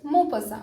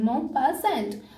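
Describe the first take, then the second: First: It is said smoothly as one foreign name. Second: It sounds like the English words pass and ant. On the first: It is the real pronunciation. The speaker calls it right. "but the pronunciation is Maupassant" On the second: It is only a memory aid. The speaker calls it wrong. "remember it with this type of pronunciation"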